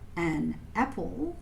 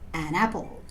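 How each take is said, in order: First: The two words are said separately. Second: The two words run together as one. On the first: "two words" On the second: "join the word an with the word after it to make one long word"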